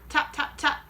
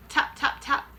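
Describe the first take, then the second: No difference in how they are said.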